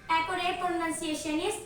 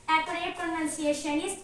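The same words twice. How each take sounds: The two takes are said the same way.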